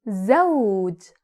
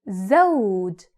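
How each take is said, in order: Both takes have the same delivery.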